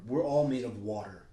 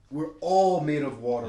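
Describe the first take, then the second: First: Said in the usual way. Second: A preacher's loud second take on "We're all made of water"; emphatic repeat. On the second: Acted. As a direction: hammer "all" home on the repeat. Repeats line, second louder.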